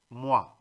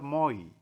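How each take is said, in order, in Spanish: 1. La vocal suena como 'wa', como en water. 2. La vocal suena como 'oy', como en boy. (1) "en francés se pronuncia wa" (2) "no vayan a decir moi"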